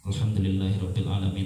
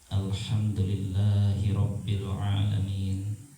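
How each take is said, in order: First: It is read quickly with the words run together. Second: It is recited slowly with drawn-out, careful sounds. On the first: It is read as ordinary Arabic. The speaker calls it wrong. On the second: It is read as Quran recitation. The speaker calls it right. "Contoh bacaan sir yang bertajwid dan bertartil"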